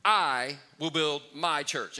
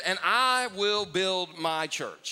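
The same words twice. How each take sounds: First: Slow and deliberate, stressing I; slow emphatic quote. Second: Slow, with weight on I; slow emphatic quote. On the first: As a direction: land hard on "I" in "I will build my church". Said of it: "He said". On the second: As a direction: lean on "I" in "I will build my church", slowly. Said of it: "he said". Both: Retold or imitated.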